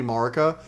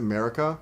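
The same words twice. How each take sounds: First: "Marika" said MAR-ih-kuh; official pronunciation. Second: "Marika" said MARE-ih-kuh; other people's pronunciation. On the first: Streamer giving what they think is official, MAR pronunciation. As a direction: open "Marika" with MAR, as in market. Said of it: "I think it's officially Marika". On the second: Streamer quoting how other players say it, MARE pronunciation. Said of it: "I've heard other people pronounce it". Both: Shown as a demonstration.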